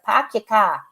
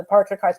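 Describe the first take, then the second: First: Boston "pack your car", R's dropped; R-less Boston demonstration; Boston accent. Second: Said in the usual way. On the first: Shown as a demonstration. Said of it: "Just drop the R's". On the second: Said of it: "pretend I can't say R's".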